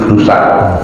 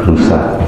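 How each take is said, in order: Both takes have the same delivery.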